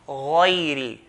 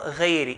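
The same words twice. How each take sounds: First: The first consonant is heavy, with a full mouth. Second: The first consonant is light, without a full mouth. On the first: The speaker calls it right. "Ghain has to be heavy" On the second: The speaker calls it wrong. "and not غيري, in between fath and kasra"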